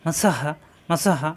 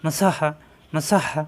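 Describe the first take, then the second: First: Slow, separated মা সা হা; careful slow recitation; slow syllable drill. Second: মা সা হা read quickly as one word; now say it fast, short vowels; quick smooth recitation; quicker joined reading. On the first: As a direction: spell it out slowly, one syllable at a time. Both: Shown as a demonstration. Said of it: "আর কত উচ্চারণ তাড়াতাড়ি".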